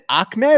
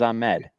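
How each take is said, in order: First: The name has a k-like sound in it. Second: The name has no k-like sound in it. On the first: "I didn't know there was a K in there" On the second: "I thought it was Ahmed"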